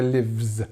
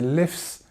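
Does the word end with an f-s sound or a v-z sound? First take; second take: v-z sound; f-s sound. First: The word ends with a v-z sound. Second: The word ends with an f-s sound. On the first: The speaker calls it right. "we say lives" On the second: The speaker calls it wrong. "we don't say lifts"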